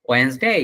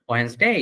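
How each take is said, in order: The two takes are said the same way.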